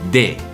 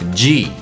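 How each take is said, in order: First: It begins with a plain d sound. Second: It begins with a j sound. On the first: The speaker calls it wrong. "people normally will say de" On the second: The speaker calls it right. "in normal Brazilian Portuguese, you would actually would say G"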